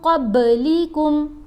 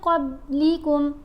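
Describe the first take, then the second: First: The b is released with a slight bouncing echo. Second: The b is closed plainly without any echo. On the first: The speaker calls it right. "बा को हिलाया" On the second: The speaker calls it wrong. "तो कलकला अदा हुआ नहीं हुआ"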